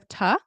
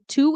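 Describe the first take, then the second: First: The word is reduced to a weak 'ta'. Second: The word is said in full, like 'too'. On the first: "instead of ta" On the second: "You'd say two"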